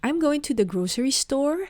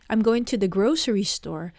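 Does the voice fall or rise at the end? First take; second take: rise; fall. First: The voice rises at the end. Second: The voice falls at the end. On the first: It is a question. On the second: It is a statement.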